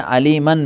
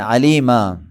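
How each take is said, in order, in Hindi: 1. शब्द का अंत 'न' की ध्वनि से होता है। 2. शब्द का अंत लंबे 'आ' स्वर से होता है।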